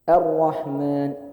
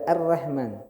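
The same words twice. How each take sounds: First: The r is pronounced heavy and full. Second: The r is pronounced light and thin. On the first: The speaker calls it right. "Ro dibaca tebal ketika domah dan fathah" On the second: The speaker calls it wrong.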